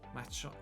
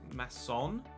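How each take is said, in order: First: The middle consonant is not an S sound. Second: The middle consonant is an S sound. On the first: The speaker calls it wrong. "It's not a" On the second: The speaker calls it right. "it's an S sound"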